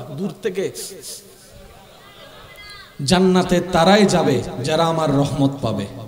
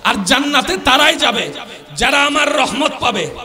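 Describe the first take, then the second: First: It is said at normal, softer volume. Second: It is said louder than before.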